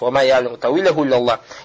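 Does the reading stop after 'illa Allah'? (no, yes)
yes. The reading stops right after 'illa Allah'. Only God knows its interpretation. "останавливаемся на лявзу джаляля"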